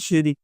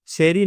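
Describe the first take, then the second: First: The first vowel sounds like 'ee'. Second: The first vowel sounds like 'ay'. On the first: The speaker calls it right. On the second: The speaker calls it wrong. "शेरी नहीं"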